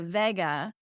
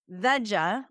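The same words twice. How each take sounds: First: The first syllable sounds like 'vay'. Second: The first syllable sounds like 'veg'. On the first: "like the car from the seventies" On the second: "like vegetarian"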